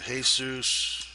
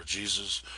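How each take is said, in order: First: Jesus said the Spanish way, "hay-SOOS"; Spanish pronunciation. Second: Jesus said the English way, "JEE-zus"; English pronunciation. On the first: Tutor reading out a tweak's name, Spanish pronunciation of Jesus. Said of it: "Spanish it's Jesus". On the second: Tutor offering the other reading, English pronunciation of Jesus. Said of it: "English it's Jesus". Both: Shown as a demonstration.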